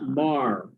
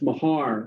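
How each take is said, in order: First: The name is said with one syllable. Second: The name is said with two syllables. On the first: This is how it is said in Ireland. "if I was in Ireland, I would pronounce it Mar, like M A R R" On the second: This is how the family says it. "We pronounce it Mahar"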